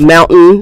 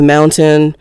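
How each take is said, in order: First: MOUNTAIN with its middle sound swallowed; casual MOUNTAIN, T not fully sounded; colloquial pronunciation. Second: MOUNTAIN with the T sounded; careful pronunciation. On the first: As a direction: clip MOUNTAIN to "mou'n". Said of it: "changing the T H in a sound". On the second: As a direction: say MOUNTAIN fully, "moun-tin". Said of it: "mountain instead of mountain". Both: Shown as a demonstration.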